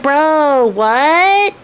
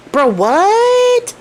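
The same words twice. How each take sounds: First: A surprised, slightly raised "what"; stunned. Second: Much higher, incredulous "what"; shocked disbelief. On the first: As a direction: caught off guard by the tailor. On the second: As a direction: squeak it out in utter disbelief. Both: Retold or imitated. Soldiers stunned seeing tailor return.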